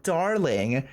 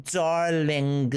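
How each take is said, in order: First: Said in the usual way. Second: Put-on drawn-out French-accented darling. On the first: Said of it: "I can hear you say it". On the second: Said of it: "with your lovely French accent".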